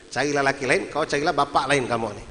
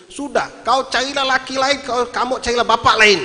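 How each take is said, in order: First: Said in the usual way. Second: High, loud fed-up shout; acted furious dismissal, building louder; angry outburst. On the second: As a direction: yell it like a husband at the end of his rope. Retold husband's outburst at wife.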